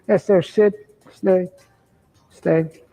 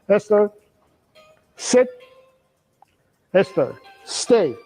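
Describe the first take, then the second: First: The command is said vaguely, without conviction. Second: The command is said firmly and very clearly.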